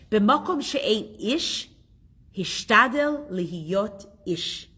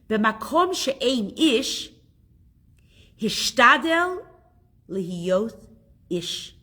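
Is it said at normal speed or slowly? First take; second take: normal speed; slowly. First: It is said at normal speed. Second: It is said slowly.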